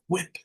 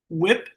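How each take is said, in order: First: The word begins with a breathy hw sound. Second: The word begins with a plain w sound. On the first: "H is interesting" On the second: "W I P"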